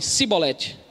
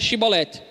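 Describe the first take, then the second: First: The word begins with a plain s sound. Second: The word begins with an sh sound. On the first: The speaker is from Ephraim. The speaker calls it wrong. "o efraimita falava assim" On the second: This is how the Gileadites said the word. The speaker calls it right. "pronuncia tal palavra, que no caso aqui era Shibolete"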